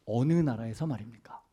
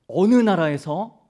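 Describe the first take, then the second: First: Said in the usual way. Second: 어느 나라에서 slow, louder and higher, rising on 어느; emphatic counter-question. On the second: Retold or imitated. Moody turning the reporters' question back, slow emphatic challenge. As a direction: lean on 어느 and let it hang as a challenge.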